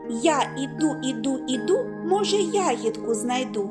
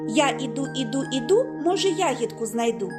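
First: The phrase is spoken at a slower, ordinary pace. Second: The phrase is spoken at a faster pace.

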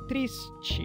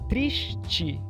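First: The t sounds like ch, and the s stays s. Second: The t sounds like ch, and the s like sh. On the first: This is how the speaker's own dialect says it. "da forma como eu falo ... só com a palatalização e o s, como era antes" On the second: This is how it is said in Rio de Janeiro. "no Rio, além desse sh aparecer no final da sílaba, nós temos também a palatalização"

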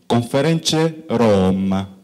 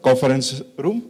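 First: It is said with an Italian accent. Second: It is said in a plain English accent.

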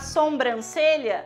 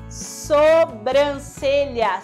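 First: The first syllable has an extra nasal 'om' sound. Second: The first syllable has no extra nasal sound. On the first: The speaker calls it wrong. "sem esse on" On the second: The speaker calls it right. "O correto é sobrancelha, sem esse on"

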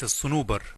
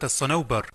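First: The vowels do not follow that pattern. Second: The vowels follow the 'safarjal' pattern. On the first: The speaker calls it wrong. "وليس الصنوبر" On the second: The speaker calls it right. "الصنوبر على وزن السفرجة"

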